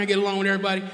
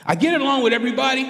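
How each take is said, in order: First: Said in the usual way. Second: Rushed and higher, protesting; quick high protest; fast, high insistence. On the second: Shown as a demonstration.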